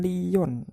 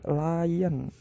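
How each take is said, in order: First: It is pronounced letter by letter as spelled. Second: It is pronounced in the English way. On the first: The speaker calls it wrong. "Bukan lion" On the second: The speaker calls it right. "tapi lion"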